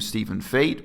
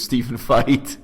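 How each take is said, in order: First: The surname sounds like the word 'fate'. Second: The surname sounds like the word 'fight'. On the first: The speaker calls it wrong. "I mispronounce his name Stephen Fate" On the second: The speaker calls it right. "His preferred pronunciation is Stephen Feit"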